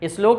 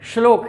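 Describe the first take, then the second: First: A short 'i' vowel comes before the 'sh'. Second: The word starts directly with the 'sh' sound. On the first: The speaker calls it wrong. "श्लोक नहीं है" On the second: The speaker calls it right. "श्लोक है"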